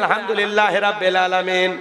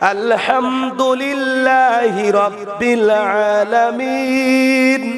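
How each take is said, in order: First: The words are recited quickly and carelessly run together. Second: The words are recited slowly and carefully articulated. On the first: The speaker calls it wrong. "এগুলো তিলাওয়াত ছাড়েন" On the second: The speaker calls it right. "সাইরে একটু তিলাওয়াত গুলো সহি করেন"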